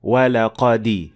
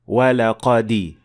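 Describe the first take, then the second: First: The dal gets a slight i-vowel. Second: The dal gets a slight i-vowel.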